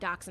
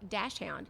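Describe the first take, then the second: First: It is not said like 'dash hound'. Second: It is said like 'dash hound'. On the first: This is how the speaker's household has always said it. "we always call it. I mean, dachshund" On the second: This is how many people say it. "A lot of people will pronounce it dash hound"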